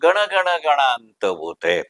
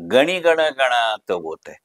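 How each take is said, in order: First: The first word ends in an 'n' consonant. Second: The first word ends in an 'ee' vowel. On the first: This is how people commonly say it. The speaker calls it wrong. "आपण नेहमी म्हणतो" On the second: This is the title as written. The speaker calls it right. "मी पुन्हा म्हणतो"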